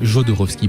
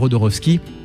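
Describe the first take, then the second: First: The name is pronounced in a French style. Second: The name is pronounced in a Spanish style.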